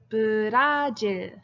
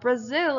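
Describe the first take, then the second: First: It is said with a j sound before the l. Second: It is said with a z sound before the l. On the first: This is the Korean name. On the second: This is the English name.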